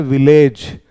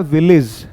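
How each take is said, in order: First: विलेज said as "vi-LAYJ", long e ending; mistaken pronunciation. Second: विलेज said as "VIL-iz", short weak ending; correct pronunciation. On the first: Teacher showing how we misread it, विलेज with a long "ayj". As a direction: draw out the "ayj" at the end of विलेज. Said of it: "जो गलत होता है". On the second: Teacher giving students the right pronunciation, विलेज modelled with an "iz" ending. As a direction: end विलेज on a short "iz" sound. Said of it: "इसका सही उच्चारण क्या होता है?". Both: Shown as a demonstration.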